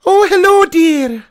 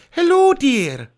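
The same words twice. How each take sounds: First: High, loud squeaky granny greeting; Mrs Doubtfire, too high. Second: A gentler nanny voice; Mrs Doubtfire, better. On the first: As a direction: overshoot the nanny voice upward. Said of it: "No, I've gone too high pitch". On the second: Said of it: "That's better". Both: Acted.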